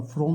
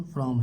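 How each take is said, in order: First: फ्रॉम with a rounded o; wrong reading. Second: फ्रॉम with an open a, like fram; correct pronunciation. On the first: Teacher warning children off a misreading, फ्रॉम with o. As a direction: read फ्रॉम with an o vowel. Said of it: "फ्रॉम नहीं पढ़ेंगे". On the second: Teacher giving children the right pronunciation, फ्रॉम like fram. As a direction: say फ्रॉम lower, with an open vowel. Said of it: "सही उच्चारण क्या है बच्चों?". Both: Shown as a demonstration.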